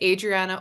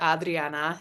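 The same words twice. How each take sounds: First: The R is said without a roll. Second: The R is said with a roll.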